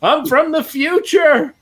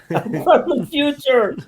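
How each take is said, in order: First: High, slow, urgent cry; frantic time traveler. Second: High, slow, laughing echo of the punchline; quoting the joke. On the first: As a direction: plead from the future in a high voice. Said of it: "I wanna run out and be like". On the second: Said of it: "I saw that on YouTube". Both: Retold or imitated.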